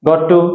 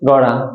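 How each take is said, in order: First: Both words are said fully and separately. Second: The words are reduced and blended into one.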